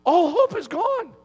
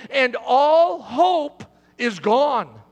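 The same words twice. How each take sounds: First: Higher, pained repeat of all hope is gone; a preacher's grieving repeat; anguished echo. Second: All hope is gone, dragged out slow and heavy; slow grave emphasis. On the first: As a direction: cry it out like a lament. Preacher echoes line in anguish. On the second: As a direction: lean on HOPE, slow and weighty. Preacher describing John's despair. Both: Acted.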